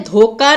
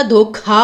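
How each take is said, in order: First: धोखा said as "dhoka"; unaspirated k. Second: धोखा with a breath after the k, "dhokha"; aspirated kh. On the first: Teacher showing the misspelling, धोखा with k for kh. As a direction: say धोखा with a plain k. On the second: Teacher correcting the word, धोखा with aspirated kh. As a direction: say धोखा with clear kh. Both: Shown as a demonstration. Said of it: "क की जगह ख".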